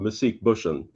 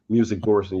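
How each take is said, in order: First: The name is said with a Swedish pronunciation. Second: The name is said with an English pronunciation. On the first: "in Swedish" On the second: "you probably pronounce it like"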